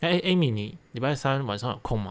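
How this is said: It is said smoothly in one breath.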